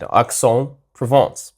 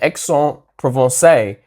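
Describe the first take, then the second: First: The name is said with a plain accent. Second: The name is said with an exaggerated French accent.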